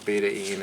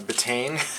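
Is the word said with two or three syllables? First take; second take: three; two. First: The word is said in three syllables. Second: The word is said in two syllables. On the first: The speaker calls it right. "the correct pronunciation is beta-ene" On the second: The speaker calls it wrong. "if I was pronouncing it, I call it uh, betane"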